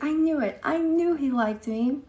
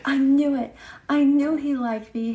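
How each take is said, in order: First: Mock lovestruck fifth grader; gushing schoolgirl. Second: High, loud, giddy schoolgirl squeal; mock giddy girl voice; gushing schoolgirl. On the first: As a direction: replay the schoolgirl's gushing, pitched up further. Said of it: "She was like". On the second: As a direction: gush like a girl who just heard the boy likes her. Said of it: "the girl was like".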